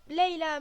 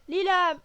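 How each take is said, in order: First: The first vowel sounds like 'ay'. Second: The first vowel sounds like 'ee'. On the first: The speaker calls it right. "ça se prononce Leila en fait" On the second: The speaker calls it wrong. "elle s'est plantée"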